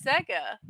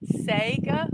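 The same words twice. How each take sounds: First: Sega with a short e, like "seg-uh"; short-e pronunciation. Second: Sega as "say-guh", questioning; long "ay" in Sega, rising like a question; long-a pronunciation. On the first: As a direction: say Sega with the e of "egg". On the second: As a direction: say Sega with the vowel of "say". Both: Shown as a demonstration. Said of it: "it's like Sega and Sega".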